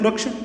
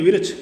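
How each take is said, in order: First: The opening consonant cluster is said without extra vowel. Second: An extra vowel splits the opening consonant cluster. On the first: "वास्तविक रूप में होता है वृक्ष" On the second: "कुछ क्षेत्रीय लोग विरक्ष बोलते हैं"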